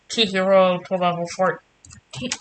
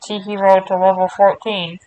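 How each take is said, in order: First: Talking into hand. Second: Louder intercom call through cupped hand. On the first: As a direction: fake intercom through cupped hand. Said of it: "I tried to talk into my hand and make it sound like an intercom". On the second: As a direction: announce it into your hand like a PA. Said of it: "That sounded a little better". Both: Shown as a demonstration.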